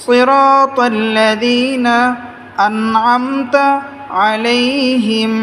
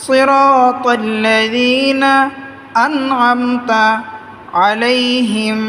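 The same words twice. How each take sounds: The two takes are said the same way.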